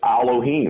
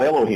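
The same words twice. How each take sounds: First: The word starts with an A sound. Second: The word starts with an E sound. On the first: The speaker calls it right. "it's Elohim, like Allah" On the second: The speaker calls it wrong. "There's no E in the Hebrew language, just an A. That's why Elohim is not Elohim"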